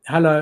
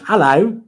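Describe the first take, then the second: First: It is said in his normal voice. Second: It is said in a put-on British-type accent.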